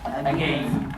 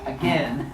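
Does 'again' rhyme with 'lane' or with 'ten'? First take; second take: lane; ten. First: The second syllable rhymes with 'lane'. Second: The second syllable rhymes with 'ten'. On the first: "it becomes again" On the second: "instead of pronouncing it as again"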